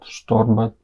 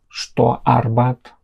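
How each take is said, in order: First: The two words are run together. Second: The two words are kept apart. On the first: The speaker calls it right. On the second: The speaker calls it wrong.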